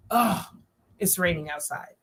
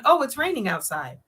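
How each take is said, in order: First: Groan, then a lower, softer, fed-up line; upset. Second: Said in the usual way. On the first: Shown as a demonstration. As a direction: let the disappointment show. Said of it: "The other one is like, "Oh man, she's upset 'cause it's raining outside". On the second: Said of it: "One is like, "Oh, it's raining out. She's just saying it's raining. Maybe she's happy".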